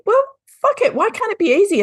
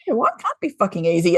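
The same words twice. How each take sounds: First: High, exasperated retold outburst; exasperated cry. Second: Said in the usual way. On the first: Retelling her own frustration to the host, high and exasperated. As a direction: throw up your hands in mock frustration.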